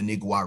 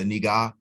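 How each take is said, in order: First: It is said with a w sound after g. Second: It is said without a w sound after g. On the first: "I would probably call it the Nigwa River because it has a U in there" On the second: "even if the Spaniards don't pronounce it like that"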